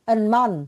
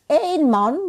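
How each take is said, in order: First: The first word is a short 'en' sound. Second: The first word is a diphthong 'ein' sound. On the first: It is the article 'a'. "dibacanya en karena dia adalah partikel" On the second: It means the number one. "ein man berarti ada seorang laki-laki. Jadi satu"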